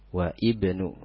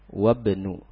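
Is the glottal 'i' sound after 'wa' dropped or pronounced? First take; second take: pronounced; dropped. First: A glottal stop and i are heard before bnu. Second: Wa runs straight into bnu with no glottal stop. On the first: The speaker calls it wrong. "jangan dibaca wa ibnu, wa ibnu. Nah, itu salah" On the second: The speaker calls it right. "wabnu hamzahnya tidak dibaca tapi tetap ditulis"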